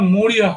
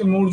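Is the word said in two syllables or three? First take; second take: three; two. First: The word is said in three syllables. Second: The word is said in two syllables. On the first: It follows the English form. "না না মৌরিয়া হবে" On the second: It follows the Sanskrit form. "একদম পরিষ্কার typical বাঙালিদের মতো বাংলা বলছেন আপনি"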